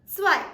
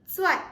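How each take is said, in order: The two takes are said the same way.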